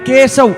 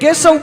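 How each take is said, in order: First: The word is stretched out between its syllables. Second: The word is said smoothly at normal length. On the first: It means a corpse floating in water. "ખાલી લંબાવી છે" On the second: It names Lord Narayan. "એક કેશવ બોલી ત્યારે ભગવાન નારાયણ થઈ જાય"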